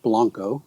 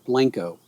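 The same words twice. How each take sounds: First: The name is pronounced the Spanish way. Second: The name is pronounced the local Texan way. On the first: "I pronounce it the way you're supposed to pronounce it" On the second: "if you're from there, you call it Blanco"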